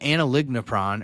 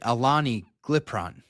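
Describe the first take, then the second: First: The name does not start like 'Alani'. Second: The name starts like the drink 'Alani'.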